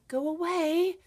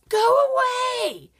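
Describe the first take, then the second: First: It is said in a calmer, more pleasant tone. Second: It is said in a whiny, unpleasant tone. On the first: This is an example for the child to imitate. The speaker calls it right. "you might change the tone and say" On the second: This is how the child says it. The speaker calls it wrong. "So if a kid says"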